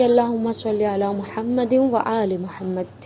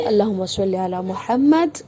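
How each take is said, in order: First: "محمد" linked into "و آل محمد", the د voweled and carried on, slowly; joined salawat. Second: "محمد" ended on a silent د, slowly, with a break after it; stop on Muhammad. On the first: Teacher showing students the joined way to recite salawat. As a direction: flow "محمد و آل محمد" as one phrase. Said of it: "ملا کر پڑھا ہے". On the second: Teacher showing the paused salawat with silent د on "محمد". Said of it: "محمد میں رکتے ہیں". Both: Shown as a demonstration.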